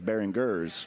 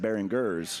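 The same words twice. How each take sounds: First: The G is said as a hard G sound. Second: The same.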